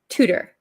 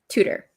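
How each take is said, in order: The two takes are said the same way.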